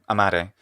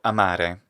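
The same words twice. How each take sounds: First: The stressed vowel is short and quick. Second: The stressed vowel is held long.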